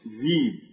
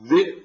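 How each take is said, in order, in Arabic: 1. يحل حرف مد طويل محل الهمزة. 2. يُسمع نطق الهمزة في الوسط.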